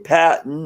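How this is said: It is said with an American pronunciation. "we say"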